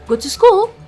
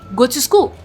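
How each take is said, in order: First: The voice rises at the end. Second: The voice falls at the end. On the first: It is not a command. The speaker calls it wrong. "if I use it with a rising intonation" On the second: It is a command. The speaker calls it right. "there is a falling intonation in this"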